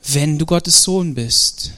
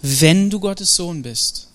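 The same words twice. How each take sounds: First: Slow, with the weight moved onto "Sohn"; slow, "Sohn" stressed and dropping. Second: Slow, with the weight on "Wenn", doubting; slow and probing, "Wenn" pressed down; stress on Wenn. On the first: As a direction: lean on "Sohn", falling at the end. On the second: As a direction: lean hard on "Wenn" as if questioning whether he is. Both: Shown as a demonstration. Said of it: "Habt ihr meine Betonung gehört?".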